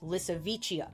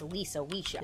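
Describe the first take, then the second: First: The name sounds like one word, Lissavicia. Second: The name sounds like two words, Lisa Weisha. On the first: The speaker calls it right. "but it's Lissavicia" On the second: The speaker calls it wrong. "which I kept pronouncing as Lisa Weisha in my head"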